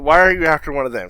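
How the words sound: It is said in Howard's mom's voice.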